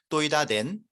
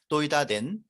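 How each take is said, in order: The two takes are said the same way.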